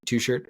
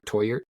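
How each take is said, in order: First: The name is read out as it is spelled. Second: The name is said with a different, unspelled sound. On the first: "it's spelled Two Shirt" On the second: "I believe it's pronounced Toyert"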